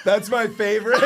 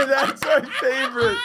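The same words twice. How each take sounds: First: Said in the usual way. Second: That's my favorite said much higher through a laugh. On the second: Real, not acted. Repeats favorite line laughing.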